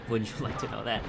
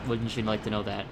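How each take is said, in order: Both takes have the same delivery.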